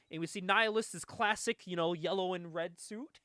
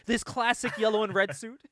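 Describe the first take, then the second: First: Said in the usual way. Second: "This classic yellow and red suit" louder, leaning on "This" with a rising tune; mock-grand, as if the suit were famous; mock-grand emphasis. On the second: Shown as a demonstration. Recapping the comic to a friend, mock-grand emphasis. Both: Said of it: "I say that like he existed before this book".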